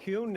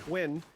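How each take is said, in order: First: The name is said like 'hyun'. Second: The name is said like 'hwin'. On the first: The speaker calls it wrong. "I keep mispronouncing that" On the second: The speaker calls it right. "Excuse me"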